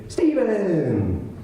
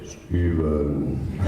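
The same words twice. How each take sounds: First: High, bright drawn-out call of the name; Chris Zarba's greeting. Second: Low, flat deadpan name; Steve's greeting. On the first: Friend answering the phone, a high cheerful greeting. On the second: Friend answering the phone, a low deadpan greeting. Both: Retold or imitated. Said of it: "he would say".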